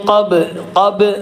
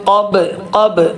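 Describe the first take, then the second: The two takes are said the same way.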